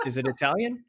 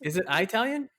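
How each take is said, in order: First: "Italian" with short IH, rising as a question; short first vowel in "Italian", checking it; ih-talian. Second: "Italian" with a long EYE, rising as a question; long first vowel in "Italian", checking it; eye-talian. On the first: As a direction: ask with "Italian" as ih-TAL-yun. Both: Shown as a demonstration. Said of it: "let you figure that out".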